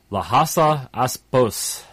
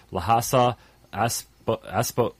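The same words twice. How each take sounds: First: Lhasa Apsos said slowly and clearly, Ap before sos; careful correction. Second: Lhasa Aspo- tripped over as Aspo, cut off twice; stumbling mispronunciation. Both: Real, not acted. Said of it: "I can't even speak".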